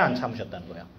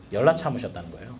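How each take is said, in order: First: 안 dropped low and softer, falling; stress on 안. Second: 열라 punched with a rise; stress on 열라. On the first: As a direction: lean on 안 quietly as a teasing question. (안을 낮고 조용히 강조) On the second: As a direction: hit 열라 hard to answer the question. (열라를 세게 강조) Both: Shown as a demonstration.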